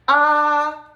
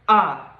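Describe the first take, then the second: First: The pitch stays high and level. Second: The pitch is short and light. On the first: "This is a flat tone" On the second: "The last one is the neutral tone"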